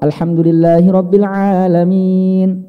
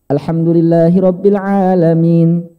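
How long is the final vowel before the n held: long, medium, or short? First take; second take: medium; short. First: The final long vowel is held moderately long. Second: The final long vowel is held only briefly. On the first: "empat harokat"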